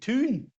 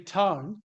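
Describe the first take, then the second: First: The vowel is a long 'oo' sound. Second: The vowel is the usual 'ow' diphthong. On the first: "they say tune" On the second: "they don't say town"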